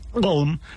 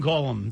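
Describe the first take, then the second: First: The name is said as a gulping, swallowing throat noise. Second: The name is said plainly, with no throat noise. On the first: The speaker calls it right. "because that's the noise that he makes" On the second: The speaker calls it wrong. "That's not how you pronounce it"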